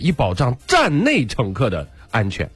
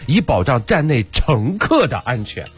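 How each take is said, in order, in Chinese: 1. 重音落在“站内”这个词上。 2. 重音落在“乘客”这个词上。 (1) "你的重音是以保障站内乘客的安全哦，站外就不保持了" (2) "重点在乘客"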